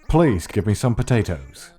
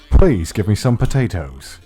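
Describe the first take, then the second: First: The P sounds are clean without popping bursts. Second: The P sounds make popping bursts of air. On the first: The speaker calls it right. "there's no peaking when I use a pop filter" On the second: The speaker calls it wrong. "when I pronounce the letter P, the audio peaks a little"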